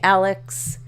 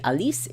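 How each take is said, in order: First: The name is given an English pronunciation. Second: The name is given a French pronunciation. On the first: "If you want to pronounce it uh, uh, English American" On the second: "if you want to pronounce it French"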